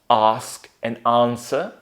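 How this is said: The vowel is a long open 'ah' sound. "in British, ... I'm putting R in British English"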